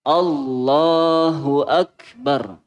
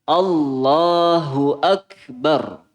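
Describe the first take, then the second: No difference in how they are said.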